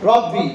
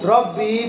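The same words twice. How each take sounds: First: The final vowel is kept short. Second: The final vowel is drawn out long. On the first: The speaker calls it right. "রব্বির মধ্যে কোনো টান নেই" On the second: The speaker calls it wrong. "অনেকে বাবা রব্বি করে টান মারে দেয়"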